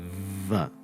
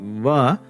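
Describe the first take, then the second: First: The v sound has strong buzzing friction. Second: The v sound has no buzzing friction. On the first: The speaker calls it wrong. "it can't be va like that" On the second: The speaker calls it right. "there's going to be no friction there"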